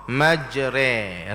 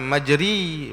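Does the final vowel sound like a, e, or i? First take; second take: e; i. First: The final vowel is an e sound. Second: The final vowel is a clear i sound. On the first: The speaker calls it right. "bacaannya majre" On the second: The speaker calls it wrong. "Dia bukan majri"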